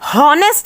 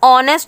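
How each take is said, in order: First: The word begins with an h sound. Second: The word begins with a vowel sound. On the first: The speaker calls it wrong. "हमने हॉनेस्ट नहीं बोला" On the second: The speaker calls it right. "ऑनेस्ट बोला, तो इसमें हम एच को silent"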